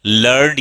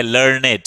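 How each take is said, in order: First: "लर्नड" as one syllable, lurnd; "लर्नड" ending straight in -nd; one-syllable learned. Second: "लर्नेड" as two syllables, lur-ned; "लर्नेड" with the -ed ending sounded out; two-syllable learned. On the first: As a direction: say "लर्नड" with no vowel before the final d. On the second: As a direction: say "लर्नेड" with a full e before the d. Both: Shown as a demonstration. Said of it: "इसका past क्या हो गया".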